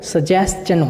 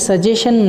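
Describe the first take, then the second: First: The middle is an 's-ch' sound. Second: The middle is a plain 'sh' sound. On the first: The speaker calls it right. "वो सजेस्चन होता है। ... जैसे क्वेश्चन को क्वेश्चन बोलते हैं" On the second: The speaker calls it wrong. "जबकि सजेशन नहीं होता"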